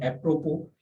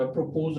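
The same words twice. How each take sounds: First: "एप्रोपो" ending on "po", s silent; correct pronunciation. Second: "एप्रोपोज" with a voiced z at the end; wrong pronunciation. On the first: Teacher introducing next word, "एप्रोपो" with silent s. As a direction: say "एप्रोपो" with no final s. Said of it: "एस जो है वो साकिन". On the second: Teacher showing the misreading, "एप्रोपोज" with final s sounded. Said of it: "नहीं पढ़ा जाता". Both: Shown as a demonstration.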